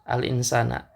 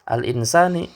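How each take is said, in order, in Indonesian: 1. Kata ini diakhiri dengan vokal a. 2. Kata ini diakhiri dengan vokal i. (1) "harokat akhirnya berharokat fathah" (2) "harokat akhirnya berharokat kasrah"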